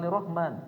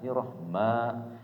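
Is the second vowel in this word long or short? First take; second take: short; long. First: The second vowel is said short. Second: The second vowel is drawn out long. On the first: The speaker calls it wrong. "Bukan Irrahman" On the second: The speaker calls it right. "Ada mad tabi'i di situ"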